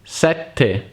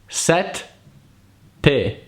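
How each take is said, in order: First: The word is said quickly as one unit. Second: The word is split by a pause in the middle. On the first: "every time faster, up to the point it becomes a single word" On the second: "Imagine the word is split in two"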